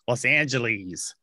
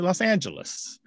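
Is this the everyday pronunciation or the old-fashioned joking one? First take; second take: old-fashioned; everyday. First: The name is said in an old-fashioned, joking way. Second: The name is said in the everyday local way. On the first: It is said only as a joke or in old movies. The speaker calls it wrong. "you might hear a joking pronunciation, or even in old movies, they might say Los Angeles" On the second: It is how people in California normally say it. The speaker calls it right. "They say Los Angeles"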